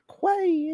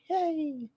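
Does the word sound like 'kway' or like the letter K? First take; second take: kway; letter K. First: The word is said as 'kway', rhyming with 'way'. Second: The word sounds just like the letter K. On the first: The speaker calls it wrong. "It's not Quay" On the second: The speaker calls it right. "it's K"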